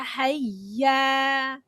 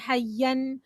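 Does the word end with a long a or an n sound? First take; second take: long a; n sound. First: The word ends with a stretched long 'a'. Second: The word ends with an 'an' sound. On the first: The speaker calls it right. "You say" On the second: The speaker calls it wrong. "you don't say"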